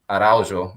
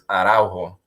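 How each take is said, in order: First: The name is said in a Portuguese accent. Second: The name is said in a Spanish accent. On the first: "There's the actual Portuguese way" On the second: "if you say it in Spanish, which is like a whole different accent"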